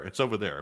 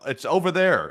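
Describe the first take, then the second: First: Softer, lower echo; under-the-breath repeat; muttered repeat. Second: Pointed correction; emphatic. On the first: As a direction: drop it quietly to yourself. Repeat after the correction. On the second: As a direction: plant it firmly over there. Correcting "down under" to over there. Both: Shown as a demonstration.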